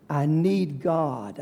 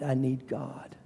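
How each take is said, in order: First: Slow, stress on need; emphatic plea. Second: Much softer repeat of I need God; soft echo. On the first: Preacher confessing to the congregation, need stressed. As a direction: lean on need, slowly. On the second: Preacher repeating his plea softly to himself. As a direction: let it fall away to near silence. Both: Real, not acted.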